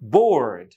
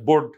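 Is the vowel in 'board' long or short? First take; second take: long; short. First: The vowel is said long. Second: The vowel is said short. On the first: The speaker calls it right. "বাট হবে কি?" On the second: The speaker calls it wrong. "আমরাও long vowel দিয়ে বলি না"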